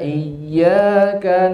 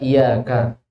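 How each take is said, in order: First: The y sound is doubled and held long. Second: The y sound is short, without doubling. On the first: It means to you alone. The speaker calls it right. "dibaca tasdid dengan number. Iya ada tekanan" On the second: It means sunlight. The speaker calls it wrong. "jangan sampai dibaca iya kak"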